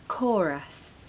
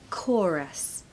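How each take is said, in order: No difference in how they are said.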